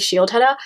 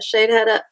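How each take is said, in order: First: The first part sounds like 'shield'. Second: The first part sounds like 'shade'. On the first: The speaker calls it wrong. "I always say it wrong. I say Shield Hedda" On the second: The speaker calls it right. "I'm saying it right"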